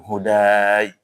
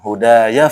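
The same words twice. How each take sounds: First: The word is said and then stops. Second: The word runs straight into the next word. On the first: "Kalau berhenti" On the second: "Kalau lanjut"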